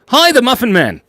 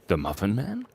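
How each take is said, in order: First: Loud, high-pitched hail; excited greeting. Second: Softer, questioning tone; quiet mock inquiry. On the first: Real, not acted. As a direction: call out in sudden excitement. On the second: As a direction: ask it low-key with a rising end.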